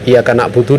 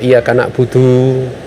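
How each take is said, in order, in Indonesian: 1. Vokal akhir dibaca pendek. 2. Vokal akhir dibaca panjang.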